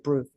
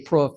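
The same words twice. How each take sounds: First: It is said with the non-local, other vowel. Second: It is said with the local Greene County vowel. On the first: This is how people elsewhere talk. "we don't say proof" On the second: This is how people from the speaker's county talk. "we say proof"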